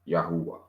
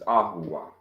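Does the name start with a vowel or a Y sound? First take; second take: Y sound; vowel. First: The name begins with a Y sound. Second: The name begins with a plain vowel sound. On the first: The speaker calls it wrong. "Today people mispronounce it as Yahuwah" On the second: The speaker calls it right. "the other name of the divine creator that was given by Moses is Ahuwah"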